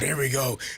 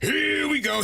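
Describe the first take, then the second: First: It is said in an annoyed, exasperated tone. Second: It is said in an excited, cheering tone. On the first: The cheering is resented. "oh God, ... Like he hates it" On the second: The team is being cheered on. "Every time I say"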